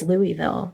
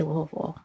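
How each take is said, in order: First: Louisville with "ee" sounded in the middle; Louisville said in full as Louie-ville; technical Louisville pronunciation. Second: Louisville squashed down, no "ee"; Louisville swallowed into "Lul-vul"; local way of saying Louisville. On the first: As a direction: say Louisville as LOO-ee-vill. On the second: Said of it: "and we say". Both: Shown as a demonstration.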